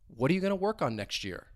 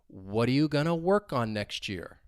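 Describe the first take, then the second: First: The sentence is spoken at normal speed. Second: The sentence is spoken slowly. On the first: "a little at a normal speed" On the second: "One time slowly"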